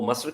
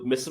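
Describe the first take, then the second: First: The vowel is an 'a' sound. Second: The vowel is an 'i' sound.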